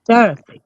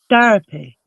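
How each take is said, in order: First: "Therapy" said a touch louder and firmer, falling; New Jersey therapy again. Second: "therapy" in her own New Jersey way, falling at the end. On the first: Showing her friends her own way of saying it: "Therapy". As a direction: repeat "Therapy" the way she really says it. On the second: To her friends, showing how she says it: "therapy". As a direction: say "therapy" the way she does at home. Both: Shown as a demonstration. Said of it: "That's how I say it".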